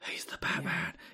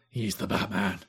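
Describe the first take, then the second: First: The put-on voice is more whispery. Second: The put-on voice is less whispery.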